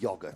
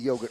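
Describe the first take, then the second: First: It is said with a British pronunciation. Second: It is said with an American pronunciation. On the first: This is not the form heard at home while growing up. "not yogurt" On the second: This is the form heard at home while growing up. "I grew up with yogurt"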